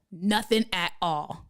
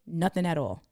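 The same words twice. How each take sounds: First: "Nothing at all" slow, each word set apart; slow, deliberate "Nothing at all" for emphasis; emphatic repeat. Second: Said in the usual way. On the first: Real, not acted.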